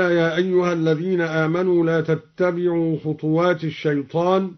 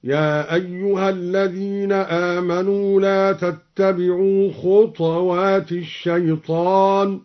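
First: Said in the usual way. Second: Measured chant, خطوات said "khutwat", no vowel after t; recited with silent vowel. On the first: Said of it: "قرأ الدوري بإسكان الطاء". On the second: Shown as a demonstration. Teacher demonstrates al-Duri's reading, chanting خطوات as "khutwat". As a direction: draw out the verse, t of خطوات vowelless. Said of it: "قرأ الدوري بإسكان الطاء تخفيفا".

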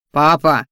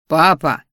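First: Sharp, loud bark of "Папа!"; barked at father. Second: "Папа!" growled low and warning; threatening growl. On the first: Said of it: "рявкнул Салдер". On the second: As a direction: warn the father with a growled "Папа!". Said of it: "угрожающе рыкнул Сал". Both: A narrator's reading.

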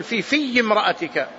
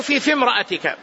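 First: "في امرأتك" with the ya doubled, "fiyy"; mistaken doubled ya. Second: "في امرأتك" with a single light ya, no doubling; light, unstressed ya. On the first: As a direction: demonstrate the misreading, holding a geminated ya in the second "في". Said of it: "بعضهم يقرأها بالتشديد وهو خطأ". (نطق "فيّ امرأتك" بتشديد الياء خطأً) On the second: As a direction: say "في امرأتك" with the second "في" short and undoubled. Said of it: "هي بالتخفيف". (نطق "في امرأتك" بتخفيف الياء دون تشديد) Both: Shown as a demonstration.

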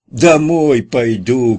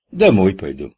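First: Loud, high and very slow shout. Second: Said in the usual way. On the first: A narrator's reading. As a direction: bellow it so a deaf ear hears. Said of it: "крикнул Кутя". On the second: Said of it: "Громче говори".

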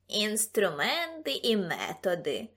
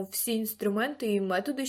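First: Slow, drawn-out mocking echo; exaggerated, dragged-out parroting; mocking mimicry. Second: Said in the usual way. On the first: A narrator's reading. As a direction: mimic the pompous phrase to tease. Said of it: "передражнив його Ксимеріус".

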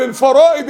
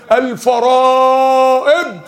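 First: Said in the usual way. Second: الفرائض stretched out very slowly with a laugh; drawn-out emphasis. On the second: Shown as a demonstration. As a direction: drag out الفرائض slowly, savouring each sound. Repeats key word drawn out. (مدّ كلمة الفرائض ببطء شديد مع ضحكة)

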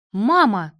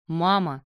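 First: Loud reproving exclamation; sharp rebuke. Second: Said in the usual way. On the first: A narrator's reading. Daughter checking her lamenting mother, sharp rebuke. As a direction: cut her off with one word. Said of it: "осадила её Катя".

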